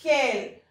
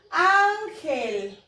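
First: "ángel" partido en dos, con pausa larga; separado por sílabas. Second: "Ángel" con ÁN alargada y fuerte; énfasis en la sílaba tónica. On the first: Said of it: "Se divide en". (silabeo pausado de "ángel") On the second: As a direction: carga la voz en la primera sílaba de "Ángel". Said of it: "La sílaba tónica es". (acento marcado en la ÁN de "Ángel") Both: Shown as a demonstration.

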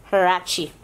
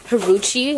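First: "Huarache" said wah-RAH-chee, the right way; correct pronunciation. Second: "Haruchi" said huh-ROO-chee, wrong; old wrong pronunciation. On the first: Shown as a demonstration. Showing viewers the right name, wah-RAH-chee. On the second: Retold or imitated. Telling viewers how she used to say it, huh-ROO-chee. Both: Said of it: "I used to say".

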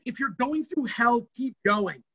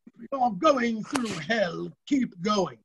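First: Said in the usual way. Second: Slow, hammed-up British accent as Churchill; a deliberately bad British accent, slow. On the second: Quoting Churchill to students in a bad British accent. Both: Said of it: "Because I do bad British accent".

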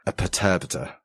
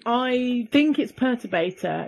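First: Perturbator as pər-TUR-bə-tər, stress on TUR; pronounced perturbator. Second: Perturbator as PER-tur-bay-tor; pronounced Perturbator. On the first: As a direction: say perturbator with the second syllable stressed. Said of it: "I think it's [name]". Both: Shown as a demonstration.

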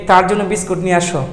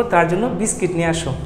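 First: বিস্কুট said as biskut with an oo sound; বিস্কুট pronounced biskut, the mistaken way; wrong pronunciation biskut. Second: বিস্কিট said as biskit with an ee sound; বিস্কিট pronounced biskit, the corrected way; correct pronunciation biskit. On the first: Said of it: "আসলে এটা ভুল কথা". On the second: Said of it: "আমরা কী বলবো?". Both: Shown as a demonstration.

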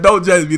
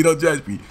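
First: Louder, higher don't judge me; pleading. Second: Said in the usual way. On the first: Real, not acted. Teller begging the audience, louder plea. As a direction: plead with the crowd, push it out.

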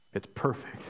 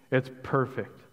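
First: A soft, hushed echo of perfect; a quiet, awed aside. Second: Said in the usual way. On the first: Acted. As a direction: breathe the words almost to yourself. Echoing it softly.

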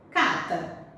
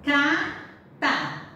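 First: Said in the usual way. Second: Cata drawn out slowly, ca-ta split into syllables. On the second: Shown as a demonstration. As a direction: sound out cata slowly for the class. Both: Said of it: "A outra".

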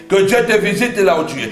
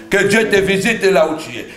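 Both takes have the same delivery.

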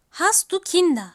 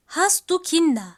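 No difference in how they are said.

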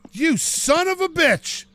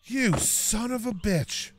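First: Higher, slow, exasperated; drawn-out outraged curse. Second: Softer, slow, seething; quietly seething curse at the damage; muttered curse. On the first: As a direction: stretch it out in disbelief. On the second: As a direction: mutter it under your breath. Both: Real, not acted. Looking at his damaged door.

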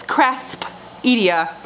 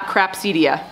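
First: Craspedia slowly, with S before P: cras-pedia; correct, careful pronunciation. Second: Crapsedia with P before S: craps-edia; mixed-up pronunciation. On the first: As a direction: sound out Craspedia with "sp" in the middle. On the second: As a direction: swap the sounds to "ps" in Crapsedia. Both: Shown as a demonstration. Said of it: "I mix the P and the S".

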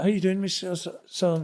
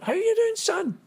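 First: Said in the usual way. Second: Very high-pitched mock Scottish woman's voice; Scottish mother's accent. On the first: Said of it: "I went like". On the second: Prisoner's Scottish ma greets the boy from Glasgow, imitated high Scottish accent. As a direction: mimic a Scottish ma in a high squeal. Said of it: "Her accent was better than mine".

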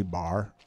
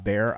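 First: "bar" with an open ah for bear; "bar", vowel widened to ah; Southern bear. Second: Said in the usual way. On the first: Shown as a demonstration. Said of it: "leftover remnant of my Southern days". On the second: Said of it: "I used to say, instead of bear".

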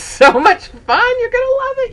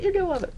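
First: Much higher, bright promise; excited. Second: Softer aside. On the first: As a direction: sell it to the viewers with a high lift. Urging viewers to go-kart. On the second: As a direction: repeat it under your breath. Repeat, dropped to aside. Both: Real, not acted.

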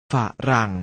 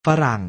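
First: ฝะ, short pause, รัง; syllable by syllable. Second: Said in the usual way. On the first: Shown as a demonstration. Teacher showing pupils the reading, ฝะ-รัง in separated syllables. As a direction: split ฝะรัง into two separate syllables. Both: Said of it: "อ่านว่า".

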